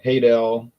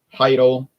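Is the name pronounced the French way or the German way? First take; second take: French; German. First: The name has a French pronunciation. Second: The name has a German pronunciation. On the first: This is the name after officials changed it. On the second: This is the family's original name. "changed their names from"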